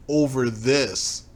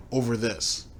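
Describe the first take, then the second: First: OVER stretched out slowly, disbelieving; slow, deliberate repeat; slow repeated emphasis. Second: Said in the usual way. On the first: Shown as a demonstration. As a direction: drag out "Over this" to mock how petty it is.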